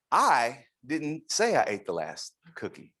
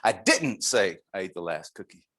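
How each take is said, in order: First: I lifted, line rising to the end; stress on I. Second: I pressed hard; emphatic I. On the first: Speaker asking what it implies, stress on I. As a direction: lean on I and let it rise. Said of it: "So what does this imply?". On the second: Speaker giving another take, emphatic stress on I. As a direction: make I emphatic. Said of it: "Em-, emphatic". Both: Shown as a demonstration.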